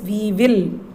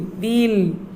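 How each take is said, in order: First: It is said as two full separate words. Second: It is said as one contracted syllable. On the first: The speaker calls it wrong. "Full form is we will" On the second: The speaker calls it right. "we should pronounce it as we'll"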